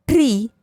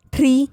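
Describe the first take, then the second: First: ट्री with ee falling in pitch; ट्री said as long "tree"; long vowel. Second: ट्री with a short i, high; ट्री said as quick "tri"; short vowel. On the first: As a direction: let the ee in ट्री fall. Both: Shown as a demonstration. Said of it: "बारह खड़ी के format में".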